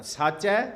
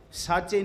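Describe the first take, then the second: First: ਸਾਚੈ ending in an open ai sound, rising; higher, louder ਸਾਚੈ with final ai; open final vowel. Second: ਸਾਚੇ ending in a closed e sound; wrong closed vowel. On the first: Preacher shows the correct reading, ਸਾਚੈ with final ai. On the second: Preacher cautions against the misreading, ਸਾਚੇ with final e. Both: Shown as a demonstration. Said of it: "ਸਾਚੇ ਨਹੀਂ ਪੜ੍ਹਨਾ".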